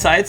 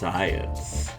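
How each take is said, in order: First: It is said in a plain, normal voice. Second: It is said in a sensual, seductive voice.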